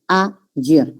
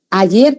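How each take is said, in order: First: "Ayer" broken as a-yer, with a gap; split into syllables. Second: Said in the usual way. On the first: Shown as a demonstration. Teacher showing why it is no triphthong, "Ayer" split a-yer. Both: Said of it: "en inicial de sílaba".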